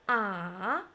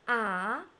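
First: The pitch dips low, then rises. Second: The pitch rises from middle to high. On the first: "The third tone, start from a low pitch, then falling, then rising" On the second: "The second tone, rising. Ah, like you are surprised"

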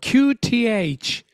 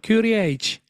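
First: The letters are said slowly and clearly. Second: The letters are said quickly and run together. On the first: "ゆっくり言うと大丈夫" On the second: "早く言うとキューディーエイチ"

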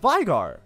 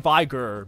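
First: The second syllable sounds like 'gar'. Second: The second syllable sounds like 'gur'. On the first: The speaker calls it right. "People are telling me it's Veigar" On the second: The speaker calls it wrong. "I say Veigar"

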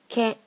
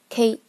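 First: The weight falls on the following vowel. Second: The k sound is strong and heavy. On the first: This is the Japanese way of saying it. "日语着重于后面的A" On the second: This is the Chinese way of saying it. "你K 发得很重，前面重"

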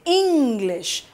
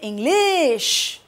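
First: The stress falls on the first syllable. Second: The stress falls on the second syllable. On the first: The speaker calls it right. "We say English. So we give more force or more stress on ing" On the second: The speaker calls it wrong. "We don't say English"

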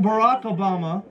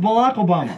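First: It is said in standard English with an R. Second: It is said in his Japanese mom's accent, R as L.

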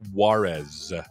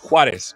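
First: The name is said with American-style pronunciation. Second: The name is said with Spanish-style pronunciation. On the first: "or as Americans would say" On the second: "It's Juarez"

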